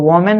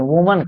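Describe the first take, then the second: First: The first vowel sounds like 'oh'. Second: The first vowel sounds like 'oo'. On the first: The speaker calls it wrong. "इसको वोमेन नहीं कहते" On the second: The speaker calls it right. "वुमन कहते"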